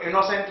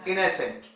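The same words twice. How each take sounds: First: The second vowel is a full 'o' sound. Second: The second vowel is a weak 'uh' sound. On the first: The speaker calls it wrong. "तो इनोसेंट नहीं है" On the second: The speaker calls it right. "क्या बोलेंगे? इनोसेंट"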